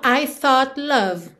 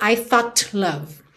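First: The final T glides straight into the L. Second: The final T is fully released before the L. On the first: The speaker calls it right. "Eu aproveito que a língua já tá no céu da boca pro T e já desço pro L" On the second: The speaker calls it wrong. "Eu não falo"

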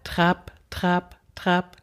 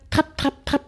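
First: The beats come slowly, in a steady rhythm. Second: The beats come quickly, in a hurried rhythm. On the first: This is the tempo the horse actually trots. The speaker calls it right. "Er trabt aber ... Dieser Takt, und der ist gut" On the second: This is the tempo the rider feels she wants. The speaker calls it wrong. "mein Bedürfnis ist immer"

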